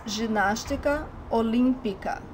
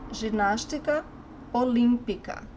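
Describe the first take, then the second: No difference in how they are said.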